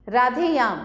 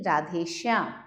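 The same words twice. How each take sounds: First: राधेयाम loudly, with no sh; राधेयाम as raadhe-yaam; missing श. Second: Said in the usual way. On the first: Shown as a demonstration. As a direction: leave out sh, as राधेयाम. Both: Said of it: "नहीं, राधेश्याम".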